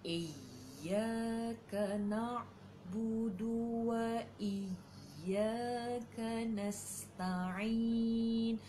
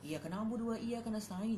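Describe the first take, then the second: First: It is recited slowly, each sound clear. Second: It is recited quickly, sounds run together. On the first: The speaker calls it right. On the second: The speaker calls it wrong.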